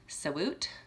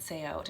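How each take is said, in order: First: A w sound joins the two syllables together. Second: The two syllables are said apart, without w. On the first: The speaker calls it right. "it's actually Saywoot" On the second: The speaker calls it wrong. "I've always said Say Out"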